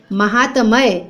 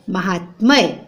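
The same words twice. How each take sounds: First: "महात्मय" as ma-haa-ta-may; vowel after t in "महात्मय"; four syllables in "महात्मय"; wrong pronunciation. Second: "महात्मय" as ma-haat-may; lower, three-beat "महात्मय"; correct pronunciation. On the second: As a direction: join t to m in "महात्मय". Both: Shown as a demonstration. Wrong then right spelling, read aloud.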